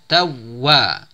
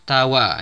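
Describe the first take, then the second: First: The w sound is pressed and held long. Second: The w sound is short and not held. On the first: The speaker calls it right. "tapi ditekan" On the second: The speaker calls it wrong. "Jadi bukan tawa"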